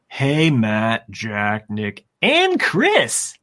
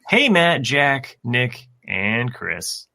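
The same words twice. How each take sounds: First: The names are read with lively excitement. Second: The names are read flatly, without excitement.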